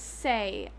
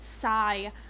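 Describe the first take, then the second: First: The name rhymes with 'day'. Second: The name rhymes with 'eye'. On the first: The speaker calls it right. "His name is Say" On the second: The speaker calls it wrong. "I have no idea why I pronounced it Sai on multiple occasions"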